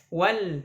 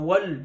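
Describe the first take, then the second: First: The L is thin and light. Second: The L is thick and heavy. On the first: The speaker calls it right. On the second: The speaker calls it wrong. "tidak wal"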